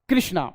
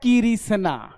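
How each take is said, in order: First: The consonant clusters are said together quickly. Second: Extra vowels split the consonant clusters. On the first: The speaker calls it right. "ये है कृष्णा" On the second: The speaker calls it wrong. "ये है किरिसना"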